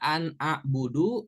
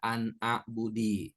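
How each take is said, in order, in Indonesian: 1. Kata terakhir berakhir dengan huruf hidup u. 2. Kata terakhir berakhir dengan huruf hidup i. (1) "Nggak boleh dibaca an a'budu" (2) "nggak boleh dibaca an a'budi"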